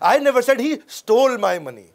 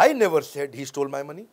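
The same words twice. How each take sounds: First: The word stole is stressed. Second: The word I is stressed.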